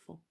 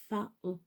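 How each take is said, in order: First: Said in the usual way. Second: "faon" split into fa-on; possible mispronunciation. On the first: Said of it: "On prononce pas le". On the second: Shown as a demonstration. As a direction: read "faon" as written, O sounded. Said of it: "on pourrait le prononcer". (« faon » lu fa-on, en deux syllabes)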